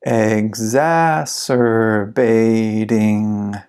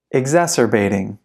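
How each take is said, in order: First: Very slow, every syllable drawn out; slow-motion model for repeating; slow pronunciation. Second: Said in the usual way. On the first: Shown as a demonstration. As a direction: stretch the word right out for learners. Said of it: "then I'll read it slow". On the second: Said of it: "I'll read it fast".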